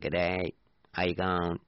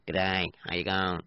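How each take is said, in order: First: Australian greeting like a pond frog; lightly croaked mock Australian accent; froggy Aussie accent. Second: Put-on Australian greeting; mock Australian accent; Aussie accent. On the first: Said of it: "That's a kind of a frog sound". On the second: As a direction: do an Aussie accent with a froggy twang. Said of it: "I can do an Aussie one". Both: Shown as a demonstration.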